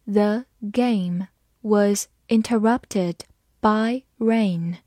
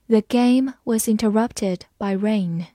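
First: Slow, word by word; slow read-along. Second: Said in the usual way. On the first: Shown as a demonstration. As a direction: read it slowly, separating the words for learners. (慢慢逐词朗读) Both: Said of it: "慢慢来读".

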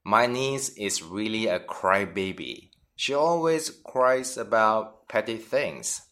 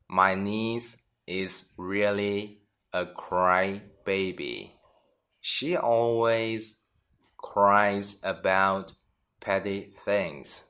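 First: Said in the usual way. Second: Slow, phrase by phrase with pauses; slow teaching read. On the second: Shown as a demonstration. Teacher repeats example slowly for students. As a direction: draw each chunk out for learners. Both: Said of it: "而是说爱哭鼻子的人".

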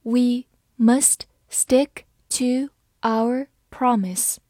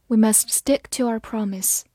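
First: Slow, careful model reading; slow demo for learners. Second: Said in the usual way. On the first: Shown as a demonstration. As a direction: read it slowly for the class. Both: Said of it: "好，慢慢来读。".

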